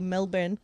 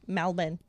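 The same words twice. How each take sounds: First: It is said with a New Zealand accent. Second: It is said with a Melbourne Australian accent.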